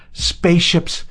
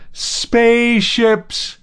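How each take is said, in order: First: High, loud shout of joy; first burst of a joyful shout; joyful howl. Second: Very high, loud and slow, stretched out; the howl stretched to its fullest; long drawn-out howl. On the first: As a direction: yell it out in pure elation. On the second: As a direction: hold the howl long in wild joy. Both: A narrator's reading. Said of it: "he howled in English".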